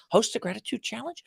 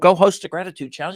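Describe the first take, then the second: First: It is said as a question, rising. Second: It is said as a command, falling.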